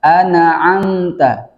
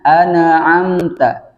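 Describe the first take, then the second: Both takes have the same delivery.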